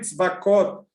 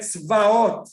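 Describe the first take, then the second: First: The word is said with a k sound. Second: The word is said without a k sound. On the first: This form avoids saying the divine name in vain. "a gente fala Hashem Tzvakot" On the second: This is the actual word for armies. "eu vou pronunciar aqui só para a gente"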